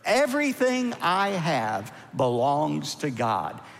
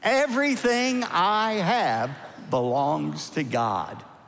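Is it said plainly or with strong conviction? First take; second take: plainly; strong conviction. First: It is said plainly, without extra force. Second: It is said forcefully, with strong conviction.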